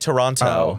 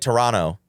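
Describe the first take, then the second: First: The second t is clearly pronounced. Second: The second t is not clearly pronounced. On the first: "When I enunciate, I get yelled at. I said like Toronto" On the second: "They're like Toronto"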